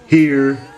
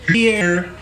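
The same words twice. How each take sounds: First: The word is said in a low, steady voice. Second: The voice cracks up high on the word. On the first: The speaker calls it right. "Deep and masculine" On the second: The speaker calls it wrong. "God damn it"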